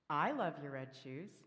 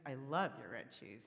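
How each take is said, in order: First: The stress is on the word I. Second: The stress is on the word red.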